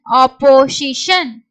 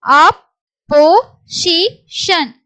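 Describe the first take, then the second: First: Said in the usual way. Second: Slow syllables with gaps. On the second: Shown as a demonstration. Teacher moves to the next word, syllable by syllable. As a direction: break "opposition" into four separate beats.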